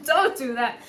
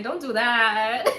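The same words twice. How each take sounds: First: DON'T DO THAT through a laugh; laughing plea. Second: Slow, drawn-out DON'T DO THAT, louder; drawn-out plea. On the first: Urging Leo not to accept abuse, laughing plea. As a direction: repeat the plea, breaking into loud laughter. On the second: Urging Leo not to accept abuse, drawn-out plea. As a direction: stretch out DON'T DO THAT as a loud plea. Pleading with listener to stop. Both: Real, not acted.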